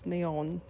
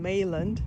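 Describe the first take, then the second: First: The name ends with a nasal 'on' sound. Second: The name ends with a clear 'land' sound. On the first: The speaker calls it right. "they pronounce Mayon" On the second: The speaker calls it wrong. "before I was saying Mayland"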